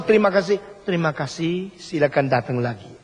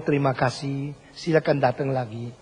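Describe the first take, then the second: First: A hint of scripted, hollow courtesy; lightly mocked insincere thanks; mock rote politeness. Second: Softer, natural and heartfelt thanks; mean every word, gently; softer sincere Indonesian thanks. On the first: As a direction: parrot the trained staff greeting lightly. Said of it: "Kalau bilang". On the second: Retold or imitated. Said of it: "kesungguhan itu menjadi tanda keindahan".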